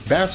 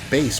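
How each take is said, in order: First: The word rhymes with mass. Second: The word rhymes with face. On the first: The name comes from a play on a person's name. The speaker calls it right. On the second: The name refers to a low musical sound. The speaker calls it wrong.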